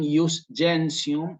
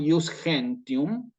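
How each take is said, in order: First: It is said in ecclesiastical, Italian-style pronunciation. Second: It is said in vulgarized, Spanish-style Latin. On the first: "si lo digo en eclesiástico" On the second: "estamos hablando en lo que se llama latín vulgar"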